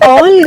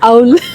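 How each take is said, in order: First: The vowel is a plain 'aw' sound. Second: The vowel glides like 'ow' in cow. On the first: The speaker calls it wrong. "ఆల్ కాదు" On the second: The speaker calls it right.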